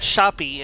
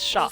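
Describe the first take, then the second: First: The final E is pronounced as an extra syllable. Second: The final E is silent, one syllable. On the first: The speaker calls it wrong. "It's not shoppy" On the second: The speaker calls it right. "it's shop"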